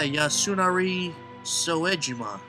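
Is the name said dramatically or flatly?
flatly. The name is said flatly and casually. It does not sound cool. The speaker calls it wrong. "If I was just like, yeah"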